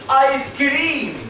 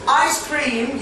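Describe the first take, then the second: First: The stress is on the second syllable. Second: The stress is on the first syllable.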